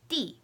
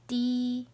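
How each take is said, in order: First: The pitch falls sharply from high to low. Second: The pitch stays high and level.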